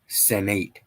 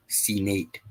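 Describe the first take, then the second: First: "Senate" said as "sen-NATE", full "nate" at the end; sounded-out word. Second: "Senate" said as "see-NATE", long ee first; altered pronunciation. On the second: Second sounding out of the word. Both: Shown as a demonstration.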